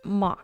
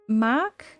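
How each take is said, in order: First: The vowel sounds like the one in 'mock'. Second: The vowel sounds like the one in 'Mac'. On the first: "I'll make sure to pronounce it mock moving forward" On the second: "It looks like Mac"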